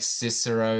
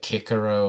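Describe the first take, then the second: First: The name begins with an S sound. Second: The name begins with a K sound. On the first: "the C being able to be pronounced like an S" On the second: "is actually meant to be pronounced like Kikero"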